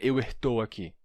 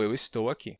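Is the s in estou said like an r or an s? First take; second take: r; s. First: The s in estou sounds like an r. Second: The s in estou sounds like an s. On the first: The speaker calls it wrong. "Um brasileiro, um português, um angolano jamais diria eu estou aqui" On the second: The speaker calls it right. "Só eu estou aqui"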